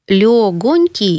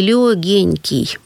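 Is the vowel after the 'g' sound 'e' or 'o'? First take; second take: o; e. First: The vowel after the 'g' is 'o'. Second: The vowel after the 'g' is 'e'. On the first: The speaker calls it right. "А на самом деле слово легонький, да, мягонький, эти прилагательные нужно произносить именно так" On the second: The speaker calls it wrong. "Легенький, я бы сказал. Второй вариант"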